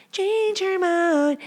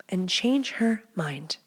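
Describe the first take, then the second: First: High, slow, singsong emphasis on "Change her mind"; high drawn-out repeat. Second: Breathy slow whisper, almost no voice; sly whisper. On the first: Host repeating her tip playfully, high and slow. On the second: Host teasing listeners about waking her, sly whisper. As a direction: whisper it like a secret tip. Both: Pretend.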